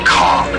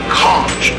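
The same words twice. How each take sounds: First: The word ends with a k sound. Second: The word ends with a ch sound. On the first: The speaker calls it right. "Think of me conking you over the head" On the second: The speaker calls it wrong. "not conch"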